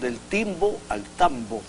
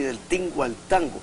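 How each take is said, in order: First: The words are said with an 'mb' sound. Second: The words are said with an 'ng' sound. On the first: This is the Honduran and Central American form. "En Honduras y en casi toda Centroamérica hablamos ... con B" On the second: This is the Mexican form. "lo pronuncian los mexicanos, lo dicen así"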